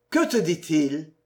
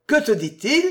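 First: Said in the usual way. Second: Higher, louder question with a rising end; insistent repeat. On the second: Acted. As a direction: ask it again, pressing for the answer. He repeats it, biting her nape. (question répétée avec insistance, plus haute)

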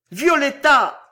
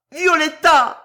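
First: High, loud anguished call of her name; loud, higher shout of Violetta; terrible cry. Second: Even higher, louder, strained call of Violetta; the name torn out at full force; climbing scream. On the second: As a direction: peak shout of Violetta, much louder. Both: A narrator's reading. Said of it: "hurla-t-il dans un cri terrible".

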